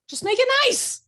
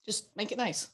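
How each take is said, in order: First: Much higher and louder, whining; high mock plea "Just make it nice"; mock high whiny voice. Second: Said in the usual way. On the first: Shown as a demonstration. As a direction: squeak it like an exasperated teacher.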